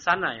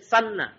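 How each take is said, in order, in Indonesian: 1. Bunyi n pendek dan tunggal. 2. Bunyi n ditahan lama dan digandakan. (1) "jangan sana ya, sana beda artinya nanti" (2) "tasdid. ... Ini mesti sana"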